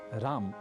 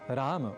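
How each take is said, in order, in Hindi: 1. शब्द एक सादे म की ध्वनि पर समाप्त होता है। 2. शब्द म के बाद एक छोटे अ के साथ समाप्त होता है। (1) "न कहें" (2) "बल्कि राम ... ऐसा कहें"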